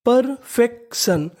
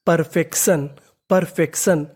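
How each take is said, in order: First: perfection said slowly and a bit higher, every syllable clear; slow careful word. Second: Said in the usual way. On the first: Shown as a demonstration. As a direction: draw out perfection for learners. (धीरे-धीरे साफ़ उच्चारण) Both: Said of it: "तो meaning बनी".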